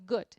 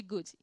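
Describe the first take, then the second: First: Lower, softer "good" in one syllable; one-syllable English "good", no vowel after; soft final D. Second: Lower, softer "good" with an ee added after d; Brazilian-style "good" with extra vowel; two-syllable good. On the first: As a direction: end "good" on a light d. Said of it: "é dessa forma que a gente consegue". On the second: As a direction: say "good" as "goo-djee". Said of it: "em vez de good". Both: Shown as a demonstration.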